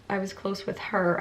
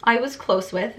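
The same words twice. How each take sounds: First: "her" with a falling tune; testing whether "her" is right; stress on her. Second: I said with a lifted tone, testing the grammar; questioning try at "I was close with"; stress on I. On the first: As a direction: try out "her" at the end. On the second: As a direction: test the phrase, stressing I. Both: Shown as a demonstration. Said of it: "is that the right".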